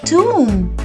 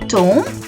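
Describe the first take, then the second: First: The vowel is pronounced as an 'oo' sound. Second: The vowel is not pronounced as 'oo'. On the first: The speaker calls it right. "the O will be pronounced as a oo" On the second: The speaker calls it wrong. "not a tomb"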